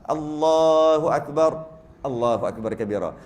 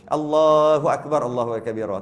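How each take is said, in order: First: There is a brief pause in the middle. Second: There is almost no pause in the middle.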